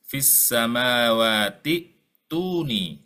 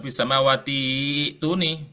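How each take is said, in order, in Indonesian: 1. Bunyi hamzah terdengar sebelum 'tuni'. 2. Vokal panjang terdengar sebelum 'tuni'. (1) "sehingga dia tetap dibaca hamzah"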